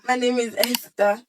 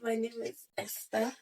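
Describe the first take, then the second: First: It is said loudly. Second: It is said quietly.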